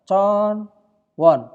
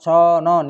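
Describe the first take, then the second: First: The w sound of won is clearly kept. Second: The w sound is dropped, words linked together. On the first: "tulisannya con won" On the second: "dibaca conon"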